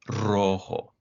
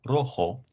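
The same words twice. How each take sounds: First: The R is a rolled trill. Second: The R is a single quick tap. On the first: The speaker calls it right. "it's rojo" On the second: The speaker calls it wrong. "it's not rojo"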